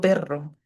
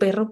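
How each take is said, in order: First: The R is rolled very hard and long. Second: The R is rolled softly and lightly. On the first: The speaker calls it wrong. "Yo no digo perro, que no soy rusa" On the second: The speaker calls it right. "yo cuando digo perro"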